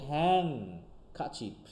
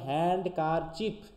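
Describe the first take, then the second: First: The first syllable ends in an ng sound. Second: The first syllable has a clear n-d ending. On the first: "কিন্তু হচ্ছে হ্যাং কাচিপ" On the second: "আমরা যদি বলতাম হ্যান্ড কার chip"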